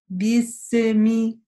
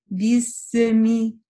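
Both takes have the same delivery.

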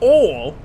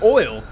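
First: It is said in a thick Southern accent. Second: It is said in a plain, general accent.

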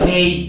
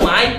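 First: The vowel sounds like 'ei'. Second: The vowel sounds like 'ai'. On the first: "pero se pronuncia Mei" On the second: "soy Mai"

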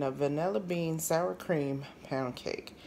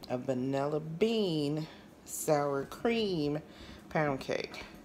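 First: It is said at normal speed. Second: It is said slowly.

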